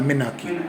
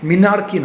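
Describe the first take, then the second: First: The first syllable has an 'eh' vowel. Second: The first syllable has an 'ee' vowel. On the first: The speaker calls it right. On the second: The speaker calls it wrong. "মিনার্কি না"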